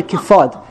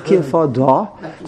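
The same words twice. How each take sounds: First: "kifad" ending on the d, no final vowel; one syllable. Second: "kifada" drawn out slowly, with an added final "a"; two syllables. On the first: Teacher showing the word without the hey, "kifad" ending on its consonant. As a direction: say "kifad" cut off at the d, with no "a" after it. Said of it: "there's only one, uh, syllable". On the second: Teacher showing what the hey adds, "kifada" slow with a full final "da". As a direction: stretch "kifada" so the extra "da" syllable is heard. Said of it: "from one syllable to two syllables". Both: Shown as a demonstration.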